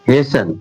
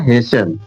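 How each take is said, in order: The two takes are said the same way.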